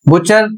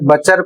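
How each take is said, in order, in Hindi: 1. पहला स्वर 'oo' की आवाज़ है। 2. पहला स्वर 'uh' की आवाज़ है। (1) "बुचर ना पढ़ के" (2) "हो सकता है बचर पढ़ें"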